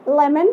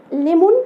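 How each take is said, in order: First: ليمون said as American "lemon", short clear vowels; corrected ليمون with an American accent; ليمون fixed the American way; right way. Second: ليمون said with a plain Egyptian "lemon" vowel; mispronounced ليمون as the local fruit word; ليمون the common wrong way. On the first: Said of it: "لأ، هي ليمون". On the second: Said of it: "البعض هنا بيقولها". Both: Shown as a demonstration.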